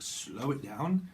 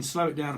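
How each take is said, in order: First: "Slow it down" drawn out at half speed; slowed right down. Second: Said in the usual way. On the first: Shown as a demonstration. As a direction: stretch out "Slow it down" unhurriedly. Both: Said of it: "you can slow it down, apparently".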